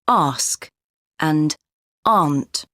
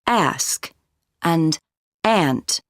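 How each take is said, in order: First: It is said in a British accent. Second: It is said in a North American accent.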